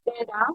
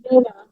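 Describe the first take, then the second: First: "better" said the British way, ending without an R. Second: "better" said the Australian way, with a softened middle T. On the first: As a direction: demonstrate UK "better" with an open final vowel. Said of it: "in the U K". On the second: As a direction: demonstrate Australian "better" with an open final vowel. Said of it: "in Australia". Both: Shown as a demonstration.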